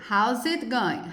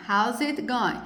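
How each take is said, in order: Both takes have the same delivery.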